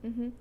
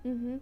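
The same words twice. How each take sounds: The two takes are said the same way.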